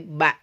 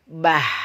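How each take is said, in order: First: The syllable ends cleanly with the breath held. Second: The syllable ends with breath audibly escaping. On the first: The speaker calls it right. "tapi ba" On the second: The speaker calls it wrong. "tidak boleh bah"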